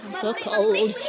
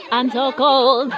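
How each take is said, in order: First: Said in the usual way. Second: Laughing, shivering cold. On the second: Real, not acted.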